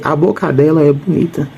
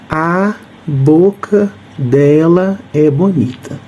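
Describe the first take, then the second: First: The phrase is read fast, running boca into dela. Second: The phrase is read at an ordinary, unhurried pace.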